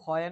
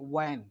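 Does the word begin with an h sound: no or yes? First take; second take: yes; no. First: The word begins with an h sound. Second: The word begins with a plain w sound. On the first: The speaker calls it wrong. "এটা কিন্তু হয়েন না" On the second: The speaker calls it right. "এটা হবে ওয়েন"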